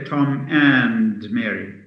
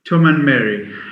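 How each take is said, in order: First: The word 'and' is said in full. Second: The word 'and' is reduced to a weak form. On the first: The speaker calls it wrong. "we don't say Tom and Mary" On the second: The speaker calls it right. "The D is dropped, the da sound is dropped, and the a sound becomes a schwa"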